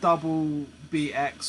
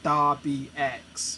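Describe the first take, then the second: First: The first word is said fully as double. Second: The first word is slurred into da. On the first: The speaker calls it right. "it's not double B X" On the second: The speaker calls it wrong. "It was like da B X, which doesn't mean anything"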